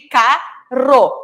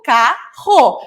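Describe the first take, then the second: First: "carro" said as caro, with a tongue-tip R; soft R. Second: "carro" with a throaty fricative R; slow "carro", the rro rasped in the throat; strong R. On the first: Teacher showing single R between vowels, tongue-tip R. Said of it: "Entre vogais, só um R". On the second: Teacher contrasting the double R, strong guttural R. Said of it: "representar esse som forte". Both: Shown as a demonstration.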